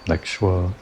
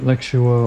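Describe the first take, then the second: First: Lexua squeezed into two syllables, LEK-shwuh; alternative pronunciation. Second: Lexua in three syllables, LEK-shoo-uh; alternative pronunciation. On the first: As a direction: say Lexua without a separate "oo", like lek-shwa. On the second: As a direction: draw out Lexua with a separate "oo" before the final "uh". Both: Shown as a demonstration. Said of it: "not sure how else it might be pronounced".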